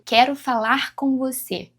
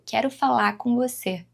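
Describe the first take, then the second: First: The final R of falar is pronounced. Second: The final R of falar is dropped.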